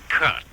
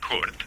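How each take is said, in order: First: The name is said with a Vermont accent. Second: The name is said with a German accent. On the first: This is how people say it in the speaker's home state. "the way they do in my home state of Vermont" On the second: This is how the speaker's name is not said. "not Kurt"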